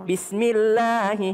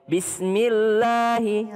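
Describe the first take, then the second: First: The L in Allah is light and thin. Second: The L in Allah is light and thin.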